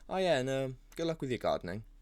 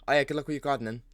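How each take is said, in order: First: It is said slowly and unhurriedly. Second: It is said quickly and hurriedly.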